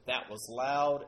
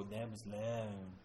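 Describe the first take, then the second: First: Slow remark. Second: Slow, low, slurred male voice; mush-mouthed voice. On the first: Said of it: "where I say". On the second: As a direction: mumble it slowly with a slack mouth. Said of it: "mush-mouthed male voice kinda go". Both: Retold or imitated.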